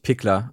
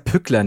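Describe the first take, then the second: First: The first vowel is an unrounded i sound. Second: The first vowel is a rounded ü sound. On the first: The speaker calls it wrong. "nicht Pickler" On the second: The speaker calls it right. "heißt der Pickler"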